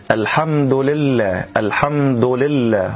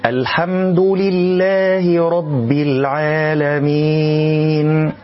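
First: Slow "لله" opening between lu and li; rounded lam vowel. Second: Slow, higher chant with a clear "li" opening "لله"; clean kasra lam. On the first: Teacher imitates a mistake for learners, lam leaning to damma. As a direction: colour the first vowel of "لله" towards u after "الحمد". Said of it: "يقرأ هذه اللام مضمومة أو بين الضم والكسر". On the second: Reciter shows learners the correct form, lam with full kasra. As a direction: move crisply from "du" to a pure i in "لله". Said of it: "والصواب". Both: Shown as a demonstration.

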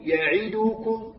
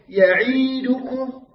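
First: "يعدكم" بكسرة كاملة قصيرة دون ياء; انطق "يعدكم" بتأنٍّ بلا مطّ للعين; كسرة غير مشبعة. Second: "يعيدكم" بياء طويلة بعد العين; مطّ كسرة العين في "يعيدكم" خطأً; كسرة ممدودة ياءً. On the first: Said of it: "هكذا". (تلاوة "يعدكم" الصحيحة المتأنية) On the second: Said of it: "ولا تمط الكسرة تجعلها ياء". (نطق "يعيدكم" البطيء بإشباع الكسرة) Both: Shown as a demonstration.

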